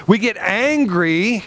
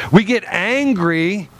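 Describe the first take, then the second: No difference in how they are said.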